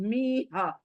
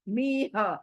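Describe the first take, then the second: The two takes are said the same way.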